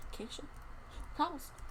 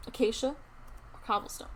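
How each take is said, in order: First: Whispered, much softer repeat of the choice; whispered question. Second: Said in the usual way. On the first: Pretend. Streamer asks viewers again which block, whispered. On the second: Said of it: "Which do you guys think is better?".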